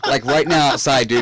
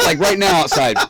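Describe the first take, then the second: First: Said again through laughter; laughing repeat. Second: Louder, laughing through it; laughing emphasis. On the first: Repeating the cold night through laughs to a friend. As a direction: laugh it out once more. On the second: Laughing to his friend about the cold night. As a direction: laugh at how cold it was. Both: Real, not acted.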